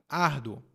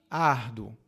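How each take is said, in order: Both takes have the same delivery.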